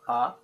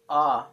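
First: The vowel is held briefly. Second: The vowel is held longer. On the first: "The letter A can be short" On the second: "or long"

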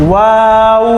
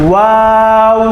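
No difference in how they are said.

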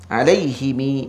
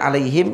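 First: The h and m take i, ending in long i. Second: The h takes i and the m is closed. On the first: "bikasril ha wal mim wal ilhaqi ya ba'dal kasrah" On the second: "yang kita sedia baca ni"

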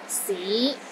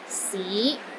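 First: The pitch rises from low to mid. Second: The same.

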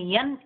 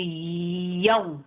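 First: The syllable ends with a clear n sound. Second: The syllable merges into a w sound. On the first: The speaker calls it wrong. "Instead of saying yan" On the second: The speaker calls it right. "it will be yaw"

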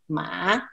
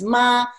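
First: The syllable is said with Mandarin tone three. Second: The syllable is said with Mandarin tone one.

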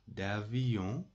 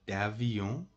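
Both takes have the same delivery.

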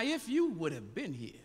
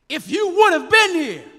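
First: It is said in a plain, neutral way. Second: It is said with a sassy, reproachful attitude.

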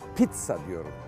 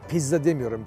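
First: The double z is said as ts. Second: The double z is said as a plain z. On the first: The speaker calls it right. "pizza diyorum. İtalyanca iki tane Z, bir tanesi T olur" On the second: The speaker calls it wrong.

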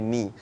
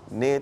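First: The vowel sounds like 'ee'. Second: The vowel sounds like 'eh'. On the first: The speaker calls it right. "tukar pada ni" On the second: The speaker calls it wrong. "ne tu tukar pada ni"

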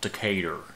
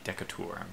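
First: It is said with an American southern drawl. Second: It is said with a European-style pronunciation. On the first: "the American pronunciation would be Decatur. You gotta almost say it with a southern drawl" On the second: "if you were to pronounce this in any European language or in Europe, the accent would be Decatur"

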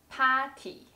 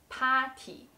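First: It is said with a slight Chinese accent. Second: It is said with a slight Chinese accent.

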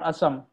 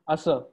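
First: The word ends with a nasal sound. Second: The word ends on an open vowel. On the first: The speaker calls it wrong. "Not asam" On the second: The speaker calls it right.

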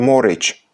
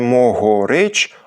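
First: The middle h sound is dropped entirely. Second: The middle h sound is pronounced fully. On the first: "а просто «морич»" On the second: "вимовляється не «могорич»"

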